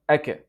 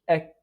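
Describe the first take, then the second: First: The final k is released with an added vowel. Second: The final k is released with a breath. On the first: The speaker calls it wrong. "It's a mistake, and common mistake" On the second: The speaker calls it right. "No, it is ek"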